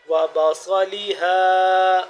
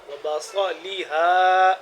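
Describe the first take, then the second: First: بصلیہا slow and loud, ص made very thick and full; extra heavy sad. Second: بصلیہا with a thick ص; heavy sad. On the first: Teacher repeats بصلیہا more slowly and loudly for students. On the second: Teacher first models بصلیہا for students, heavy ص. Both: Shown as a demonstration. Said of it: "ذرا موٹا کر کے".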